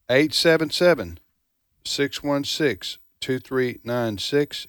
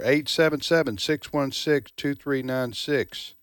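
First: The number is read at a slower pace. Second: The number is read at a faster pace.

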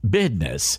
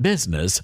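First: The word is said in a Southern drawl. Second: The word is said in a standard accent. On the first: "throwing around Southern slang" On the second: "Not business"

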